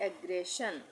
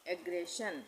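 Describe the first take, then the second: The two takes are said the same way.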